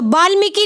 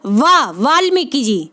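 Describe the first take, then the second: First: वाल्मीकि said with a b sound, as बाल्मीकि; wrong b sound. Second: वा then वाल्मीकि जी, slow and lower, with a clear v; correct v sound. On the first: Teacher showing students the wrong बाल्मीकि. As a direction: say वाल्मीकि starting with b, the common mistake. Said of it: "बा नहीं होता". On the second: Teacher slowly giving students the correct v in वाल्मीकि. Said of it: "वा होता है". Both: Shown as a demonstration.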